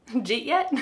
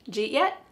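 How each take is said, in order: First: Did is dropped and you becomes j. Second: Did is dropped and you becomes j.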